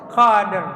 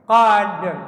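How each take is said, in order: Both takes have the same delivery.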